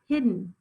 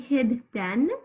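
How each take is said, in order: First: The second syllable has a weak schwa vowel. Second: The second syllable has a full short E. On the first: The speaker calls it right. "in the second syllable, I'm hearing a schwa" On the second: The speaker calls it wrong. "You don't say hidden, right? We don't really emphasize that E"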